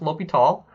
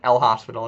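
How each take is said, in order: First: The name is said without an s sound. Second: The name is said with an s sound. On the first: The speaker calls it right. "it is pronounced L'Hopital" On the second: The speaker calls it wrong. "It is not pronounced uh, like El Hospital"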